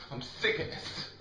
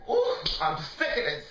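First: Low-energy, weary exasperation; fed up, under the breath. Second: High-pitched burst of frustration; exasperated outburst. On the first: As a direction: say it drained and half-voiced. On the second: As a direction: let it burst out high, fed up. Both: Real, not acted. Fed-up rant at partner.

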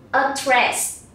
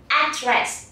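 First: Said in the usual way. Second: "address" stressed on the first syllable, AD-dress; American first-syllable stress. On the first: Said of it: "Đôi khi chúng ta sẽ nghe người Mỹ". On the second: Shown as a demonstration. Teacher shows pupils how Americans say it, "address" stressed on first syllable. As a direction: hit the opening syllable of "address". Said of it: "nhấn vào âm tiết thứ nhất".

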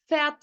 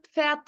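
First: "Pferd" said with a plain F at the start; "Pferd" opening on F alone, no P; F pronunciation. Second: "Pferd" with a light P before the F; PF pronunciation. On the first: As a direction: say "Pferd" as "Fert", silent P. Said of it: "P, F yan yana geldiği zaman". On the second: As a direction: say "Pferd" starting on a PF burst. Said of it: "Biraz Pferd da diye okuyabilirsiniz". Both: Shown as a demonstration.

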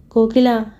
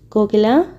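First: Stunned. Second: Soft call. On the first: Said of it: "నివ్వెరపోయాడతను". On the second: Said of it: "మృదువుగా పిలిచాడు". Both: A narrator's reading.

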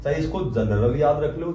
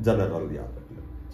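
First: Said in the usual way. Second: जनरल said slowly, syllable by syllable, in a lower voice; जनरल drawn out low and deliberate; slow mnemonic. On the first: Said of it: "mnemonic said plain first". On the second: Shown as a demonstration. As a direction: spell out जनरल slowly for the class. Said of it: "mnemonic repeated slow and low".

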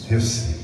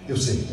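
Both takes have the same delivery.

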